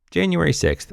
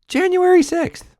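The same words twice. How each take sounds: First: Controlled, quieter exasperation; restrained repeat. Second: Very high-pitched exclamation; shrieky falsetto exasperation; exasperated squeal. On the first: Real, not acted. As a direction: bring it down from the squeal and state it. Same words repeated lower. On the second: Acted. Exasperated outburst, then repeated normally.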